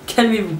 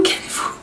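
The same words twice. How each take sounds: First: Said in the usual way. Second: Breathless laugh on the words; half-laughing calm down; laughing through it. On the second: Real, not acted. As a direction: giggle it out.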